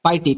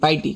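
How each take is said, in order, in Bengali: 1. শব্দটি 'pie' ধ্বনি দিয়ে শুরু হয়। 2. শব্দটি 'pie' ধ্বনি দিয়ে শুরু হয়।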